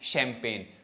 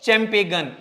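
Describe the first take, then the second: First: The g is silent; it ends in a plain n. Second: A g sound is pronounced before the final n. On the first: The speaker calls it right. "जी का तो sound है ही नहीं" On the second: The speaker calls it wrong. "नहीं भाई ना मुन्ना ना"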